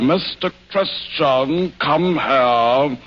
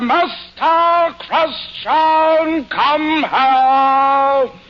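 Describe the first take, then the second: First: It is said flatly, without much feeling. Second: It is said with strong, intense feeling.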